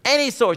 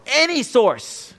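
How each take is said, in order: First: Any source repeated briskly; a fast echo of Any source; quick repeat. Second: Any source drawn out slow and high; slow emphatic. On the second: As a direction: lean hard on Any source, slowly. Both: Shown as a demonstration. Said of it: "one who's able and willing to learn from any source".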